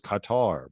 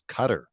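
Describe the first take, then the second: First: The name does not sound like 'cutter'. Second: The name sounds like the word 'cutter'. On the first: This is how the speaker used to think it was said. The speaker calls it wrong. "I always thought it was Qatar" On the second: This is how the speaker now knows it is said. The speaker calls it right. "as in like a like a knife is a cutter"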